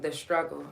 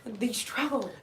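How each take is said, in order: First: It is said in his normal accent. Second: It is said in a white American accent.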